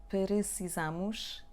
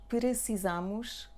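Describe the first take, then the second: Both takes have the same delivery.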